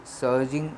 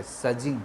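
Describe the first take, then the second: First: सर्जिंग said with a clear r, sur-jing; the wrong way, सर्जिंग with the r sounded; wrong pronunciation. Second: सजिंग said with no r, sa-jing; the right way, सजिंग without the r; right pronunciation. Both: Shown as a demonstration. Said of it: "सर्जिंग नहीं है".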